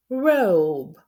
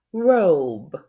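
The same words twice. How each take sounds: First: "robe" repeated with a long O, loud; long O again. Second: "Robe" sounded out as roob, loud and slow; long O, silent e. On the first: Teacher has kids repeat "robe" with long O. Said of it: "Let's do it again". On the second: Teacher to kids: "Robe" with a long O. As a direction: stretch the O in "Robe", drop the E. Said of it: "And the E is quiet". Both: Shown as a demonstration.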